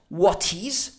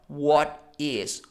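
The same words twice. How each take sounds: First: The T in 'what' is fully pronounced. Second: The T in 'what' is almost silent. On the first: The speaker calls it wrong. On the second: The speaker calls it right.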